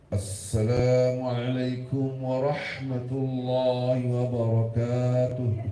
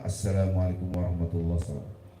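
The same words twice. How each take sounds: First: It is said with excessive, exaggerated enthusiasm. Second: It is said in a calm, plain manner. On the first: The speaker calls it wrong. "Saking semangatnya, tapi salah" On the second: The speaker calls it right. "Yang benar"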